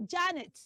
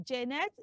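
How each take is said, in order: First: Janet as "JAN-ut"; correct pronunciation. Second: Janet as "jeh-NET"; E in both syllables of Janet, full ending; wrong pronunciation. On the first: Teacher asks children to repeat, Janet as "JAN-ut". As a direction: open A, light ending on Janet. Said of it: "The right pronunciation for that name is". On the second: Teacher recaps the mistake, Janet as "jeh-net". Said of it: "do not say Janet". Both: Shown as a demonstration.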